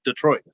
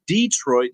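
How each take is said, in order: First: The first vowel is short and reduced. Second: The first vowel is a long 'ee'. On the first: The speaker calls it right. "instead of" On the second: The speaker calls it wrong. "I said Detroit"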